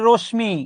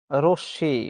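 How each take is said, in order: First: "রশ্মি" said rosh-mi, with the m sounded; common mispronunciation. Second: "রশ্মি" said rosh-shi, m silent, lower pitch; correct pronunciation. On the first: Retold or imitated. Teacher imitating students' mistake, "রশ্মি" as rosh-mi. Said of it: "বাঙালি ছেলেমেয়েরা অনেকে উচ্চারণ করে". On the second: Shown as a demonstration. Teacher giving the correction, "রশ্মি" as a low rosh-shi. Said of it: "উচ্চারণ হচ্ছে".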